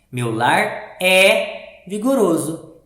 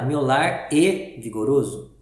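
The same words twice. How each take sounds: First: Slow reading with "é" loud, long and open as "eh"; open accented é. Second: Slow reading with "é" wrongly closed to "ay", like "and"; closed unaccented e. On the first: Teacher reading the accented verb to pupils, open é. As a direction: lean on a wide open "é" in "Meu lar é vigoroso". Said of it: "eu tenho que ler assim". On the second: Teacher showing the wrong reading without accent, closed vowel. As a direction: misread "é" as a closed "e" in "meu lar é vigoroso". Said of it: "Se fosse sem acento". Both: Shown as a demonstration.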